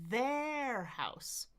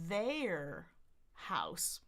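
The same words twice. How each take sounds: First: The vowel in 'their' sounds like 'eh'. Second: The vowel in 'their' sounds like 'they'. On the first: "Some people go so far as to say eh, eh, their, their house" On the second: "So you could say they, they, their house"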